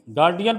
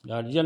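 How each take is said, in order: First: गार्डियन, clear d before -ian; d in place of j in गार्डियन; taught pronunciation. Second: गार्जियन, soft j in the middle; j in place of d in गार्जियन; rejected pronunciation. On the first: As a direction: say गार्डियन with a hard d. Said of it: "गार्डियन पढ़ते हैं". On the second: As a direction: say गार्जियन with a j sound. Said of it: "गार्जियन नहीं पढ़ते इसको बच्चा". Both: Shown as a demonstration.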